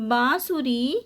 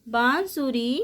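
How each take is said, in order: Both takes have the same delivery.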